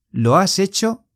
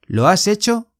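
No difference in how they are said.

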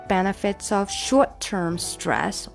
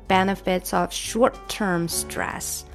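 Both takes have the same delivery.

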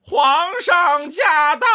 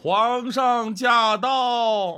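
First: It is called at a higher pitch. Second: It is called at a lower pitch.

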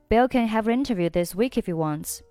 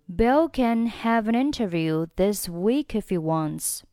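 First: The sentence is read at a faster pace. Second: The sentence is read at a slower pace.

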